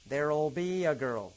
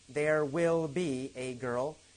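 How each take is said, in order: First: Will is reduced to a short 'll sound. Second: The word will is said in full. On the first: "There'll, there'll, there'll be a girl"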